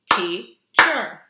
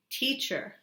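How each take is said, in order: First: "Teacher" much louder, two strong beats; loud syllable-clapping demo; clapped syllables. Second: Said in the usual way. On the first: Shown as a demonstration. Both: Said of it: "You do it".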